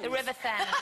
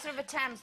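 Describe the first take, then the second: First: Thames begins with a 'th' sound. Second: Thames begins with a plain 't' sound. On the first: The speaker calls it wrong. "they always said the Thames" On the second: The speaker calls it right. "no, it's the River Thames"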